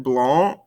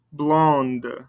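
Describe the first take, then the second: First: "Blond" ending on the nasal vowel; silent ending consonants. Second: "Blonde" closed with an audible N and D; sounded ending consonants. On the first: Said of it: "don't pronounce these ending consonants". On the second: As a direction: let the D of "Blonde" be heard. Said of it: "makes us pronounce those ending consonants". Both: Shown as a demonstration.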